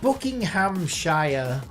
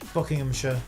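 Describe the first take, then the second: First: The ending is a full 'shire' sound. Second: The ending is a short, reduced 'sh' sound. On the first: This is how outsiders say it. The speaker calls it wrong. "they're like Buckinghamshire" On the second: This is how locals say it. The speaker calls it right. "We just say sh. Like Bucking Buckinghamshire, we would say"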